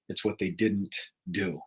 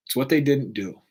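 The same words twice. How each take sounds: First: Hushed, low, letting "what" fall; soft solemn line. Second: Said in the usual way. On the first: Shown as a demonstration. Speaking of the dying, hushed and solemn. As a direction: drop the voice as the point lands.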